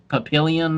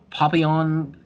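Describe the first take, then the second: First: It is said with an American English pronunciation. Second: It is said with a French pronunciation.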